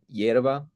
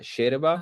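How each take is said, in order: First: The word starts with a y sound. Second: The word starts with a sh sound.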